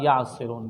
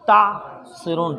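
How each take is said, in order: First: The word begins with a 'y' sound. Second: The word begins with a 't' sound. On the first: Absent people are spoken about. "गैब के साथ पढ़ते हैं" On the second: The listeners are addressed directly. "तासिरून पढ़ा है"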